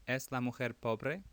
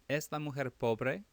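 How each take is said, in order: No difference in how they are said.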